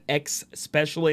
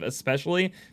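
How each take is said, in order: First: The word begins with an 'ex' sound. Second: The word begins with an 'es' sound. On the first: The speaker calls it wrong. "I said X especially" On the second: The speaker calls it right. "instead of especially"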